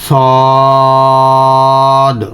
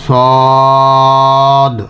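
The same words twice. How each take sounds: Both takes have the same delivery.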